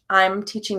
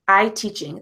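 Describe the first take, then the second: First: The lips close for an M before teaching. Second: The lips stay open with no M sound. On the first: The speaker calls it right. "you can still see my mouth comes together before it goes to the next sound" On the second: The speaker calls it wrong. "They don't close their lips for I'm"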